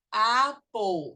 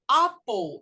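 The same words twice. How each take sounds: First: American pronunciation of "apple", long open first vowel; American English. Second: British pronunciation of "apple", shorter back first vowel; British English. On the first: Teacher models the correct word for parents, American English. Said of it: "esse é inglês americano". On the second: Teacher shows the alternative is also right, British English. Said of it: "é o britânico". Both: Shown as a demonstration.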